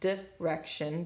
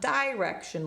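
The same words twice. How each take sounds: First: The first vowel is reduced to a schwa. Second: The first vowel is a full, clear vowel. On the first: The speaker calls it right. "it's direction because it's flexing to the schwa" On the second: The speaker calls it wrong. "it's not direction like it would be"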